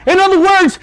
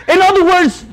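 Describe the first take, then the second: No difference in how they are said.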